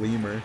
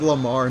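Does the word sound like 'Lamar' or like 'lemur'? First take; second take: lemur; Lamar. First: It is said to sound like lemur. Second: It is said as the name Lamar. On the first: This is what the other person misheard. The speaker calls it wrong. "not Lamar" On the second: This is the name that was meant. The speaker calls it right. "I said Lamar"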